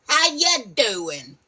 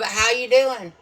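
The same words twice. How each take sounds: First: It is said in a New York accent. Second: It is said in a plain, neutral accent.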